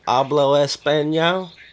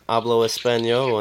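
First: It is said with a Southern twang. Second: It is said without a Southern twang.

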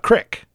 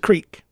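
First: The vowel is a short i sound. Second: The vowel is a long ee sound. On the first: The speaker calls it wrong. "It's not a crick. Crick is C-R-I-C-K" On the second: The speaker calls it right. "It's a creek. Creek is C-R-E-E-K"

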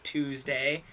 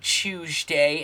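First: It is said in an American accent. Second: It is said in a British accent.

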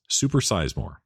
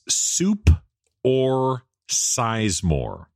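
First: The phrase is said fast and run together. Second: The phrase is said slowly as separate words.

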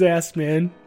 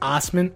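First: The name begins with an 'ass' sound. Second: The name begins with an 'oss' sound. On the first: This is how the spelling reads. "when you read it as Assman" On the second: This is how the family says it. "It's pronounced Osman"

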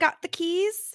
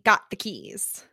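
First: The voice rises at the end. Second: The voice falls at the end. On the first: The speaker is asking whether the keys were taken. "was Monica asking the question" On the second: The speaker is stating that the keys were taken. "Or was she saying"

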